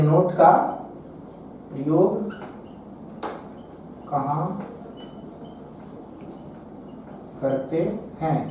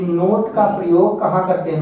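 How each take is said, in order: First: Word-by-word dictation. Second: Said in the usual way. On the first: Shown as a demonstration. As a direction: dictate slowly as if writing each word. Same question repeated while writing. (लिखवाते हुए धीरे, रुक-रुककर)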